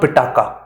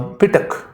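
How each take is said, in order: First: The word ends with an added final vowel. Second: The word ends on a final k sound. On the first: The speaker calls it wrong. "It's not Pitaka" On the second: The speaker calls it right. "it is actually uh, Pitak"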